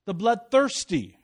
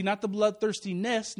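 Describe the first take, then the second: First: Slow, weighty "bloodthirsty"; stress on BLOODTHIRSTY. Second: "bloodthirstiness" with the ending picked out; stress on -NESS. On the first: Preacher restoring the verse's wording, deliberate on "bloodthirsty". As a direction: land slowly and firmly on "bloodthirsty". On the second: Preacher ruling out a misreading, contrastive stress on "-ness". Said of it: "not the sin". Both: Shown as a demonstration.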